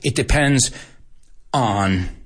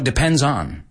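First: On is separated from depends by a pause. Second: On is joined to depends without a pause. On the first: The speaker calls it wrong. "No es it depends on" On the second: The speaker calls it right. "El on es parte del depends"

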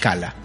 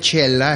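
First: The name begins with a k sound. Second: The name begins with a ch sound. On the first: This is how the word reads when spelled out. "que la gente lo pronuncie como se lee" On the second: This is the original Swedish pronunciation. "yo estoy seguro que se pronuncia chela, es una palabra sueca"

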